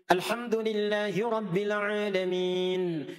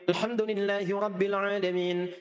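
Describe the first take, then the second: First: The final long vowel is held a medium length. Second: The final long vowel is held only briefly. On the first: "Itu pertengahan empat" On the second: "Itu hadar"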